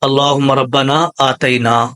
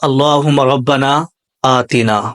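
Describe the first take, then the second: First: The middle vowel of 'atina' is the diphthong 'ai'. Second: The middle vowel of 'atina' is a short 'i'. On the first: The speaker calls it wrong. "बहुत सारे लोग आतिना को क्या पढ़ते हैं ... तो ये गलत हो गया" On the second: The speaker calls it right. "सबसे पहले हमने पढ़ा"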